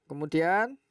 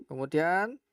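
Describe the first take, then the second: No difference in how they are said.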